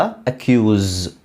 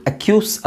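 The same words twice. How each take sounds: First: ಅಕ್ಯೂಸ್ slowed, ending in a buzzing z. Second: ಅಕ್ಯೂಸ್ with a hissed s at the end; wrong way, s sound. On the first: Teacher modelling ಅಕ್ಯೂಸ್ slowly with a z ending. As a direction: stretch ಅಕ್ಯೂಸ್ and close it with a clear z. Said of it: "ಝ ಬರ್ಬೇಕು". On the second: Teacher showing the wrong ಅಕ್ಯೂಸ್ with s. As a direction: say ಅಕ್ಯೂಸ್ ending in a plain s. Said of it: "ಅಕ್ಯೂಸ್ ಅಲ್ಲ". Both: Shown as a demonstration.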